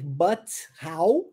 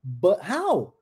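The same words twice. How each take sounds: First: "but how" with a clear T sound. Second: "But how?" with the T swallowed. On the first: Teacher shows the full T in "but how". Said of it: "Ao invés de eu dizer". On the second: Teacher models "But how?" with the T swallowed. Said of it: "como é que eu engoli o T?". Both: Shown as a demonstration.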